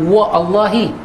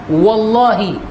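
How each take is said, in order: First: A separate glottal break comes before the second part. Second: The first sound runs straight into the next. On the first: The speaker calls it wrong. "Kita tak kata wa Allahi" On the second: The speaker calls it right. "kita kata wallahi"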